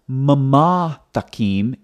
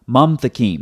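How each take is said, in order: First: The first part is said as two syllables. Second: The first part is said as one syllable. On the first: The vowel marker is treated as a spoken vowel. The speaker calls it wrong. "So it's not mama takim" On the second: The vowel marker is treated as silent. The speaker calls it right. "it's one syllable, mom, not mama"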